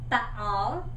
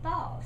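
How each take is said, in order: First: The word is broken into two syllables. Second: The word is said as one smooth syllable. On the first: The speaker calls it wrong. "we don't say ba-all" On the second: The speaker calls it right. "we say ball"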